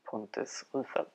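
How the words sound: The name is pronounced with Swedish sounds.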